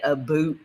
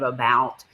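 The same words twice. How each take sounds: First: "about" said as "a boot"; Canadian "about". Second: Said in the usual way. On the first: Retold or imitated. Laughing about a friend's accent, Canadian "a boot". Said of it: "she doesn't say a boot very much". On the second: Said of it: "instead of about".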